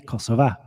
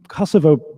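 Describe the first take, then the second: First: The name ends with an A sound. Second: The name ends with an O sound. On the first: This is the Kosovo Albanian form of the name. "they say it with an A" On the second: This is the Serbian form of the name. "with an O is a Serb Orthodox word"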